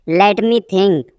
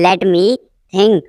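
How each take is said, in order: First: Said in the usual way. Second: Teacher setting "think" apart; broken-up repeat. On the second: Shown as a demonstration. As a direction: pause before "think".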